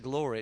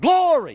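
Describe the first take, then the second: First: It is said plainly, in an ordinary voice. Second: It is said in an exaggerated churchy preacher style. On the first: The speaker calls it wrong. "You can't just say glory, it doesn't work" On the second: The speaker calls it right. "you have to learn how to say glory as Christianese"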